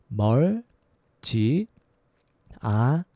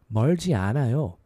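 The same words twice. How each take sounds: First: It is said slowly. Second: It is said fast.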